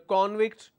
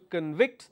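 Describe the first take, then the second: First: The stress is on the first syllable. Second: The stress is on the second syllable. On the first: It names a person found guilty. "If I am stressing on the first one, it means it's a noun" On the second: It names the act of finding someone guilty. "Second one is a verb"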